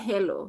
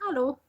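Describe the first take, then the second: First: It is pronounced like English hello. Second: It is pronounced like German hallo. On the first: The speaker calls it wrong. "you don't say hello" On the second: The speaker calls it right. "That is German"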